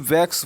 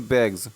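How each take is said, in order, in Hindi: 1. शब्द 'bags' का अंत एक स्वरहीन, सिसकार वाली ध्वनि से होता है। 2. शब्द 'bags' का अंत एक स्वरयुक्त, गुंजन वाली ध्वनि से होता है। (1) "ना कि वैक्स बोलते हैं" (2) "तो यहाँ पे वैग्स बोलते हैं"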